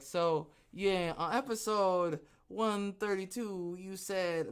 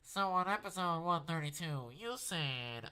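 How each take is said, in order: First: It is said in his normal voice. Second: It is said in a put-on voice.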